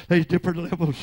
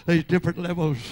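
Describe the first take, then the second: No difference in how they are said.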